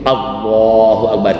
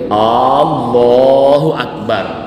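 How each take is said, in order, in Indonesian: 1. Vokal pertama dibaca pendek. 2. Vokal pertama dibaca panjang. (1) "A-nya itu tidak boleh panjang, harus pendek" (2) "tidak boleh"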